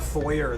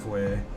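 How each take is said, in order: First: The word ends with a clear r sound. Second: The word ends in a vowel with no r. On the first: It is said the English way. The speaker calls it wrong. "how dare you pronounce consonants?" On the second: It is said the French way. The speaker calls it right. "Notice how I pronounced it foyer? Because otherwise the French people in here get really pissy with me"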